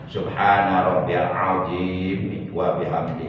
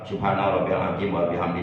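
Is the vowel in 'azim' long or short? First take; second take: long; short. First: The vowel in azim is drawn out long. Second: The vowel in azim is said short. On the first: It means great. The speaker calls it right. "Azim panjangkan itu minimal dua hal" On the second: It means bone. The speaker calls it wrong. "Itu pendek semua. Arti tulang itu"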